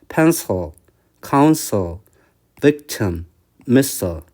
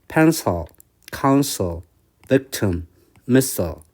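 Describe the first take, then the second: No difference in how they are said.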